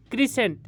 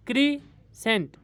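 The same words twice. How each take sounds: First: Said in the usual way. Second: crescent slowly split as क्री, pause, Saint; two separate beats in crescent; syllable break. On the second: Shown as a demonstration. (Crescent को धीरे, तोड़कर दो हिस्सों में) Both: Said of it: "इसमें दो syllable हैं".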